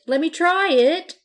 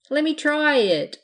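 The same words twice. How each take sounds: First: Higher, louder, rising on try; pirate pestering Blanche, pleading harder; begging harder. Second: High, loud eager begging; little pirate begging Blanche for a turn. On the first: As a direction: beg again with more urgency. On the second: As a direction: plead like a little brother. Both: A narrator's reading. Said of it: "begged the pirate".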